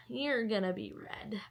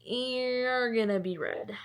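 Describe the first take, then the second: First: Said in the usual way. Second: Long, stretched YOU'RE, slow delivery; drawn-out vow. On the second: Acted. Reader to a newly found book, slow relishing vow. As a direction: drag out "You're" before the rest.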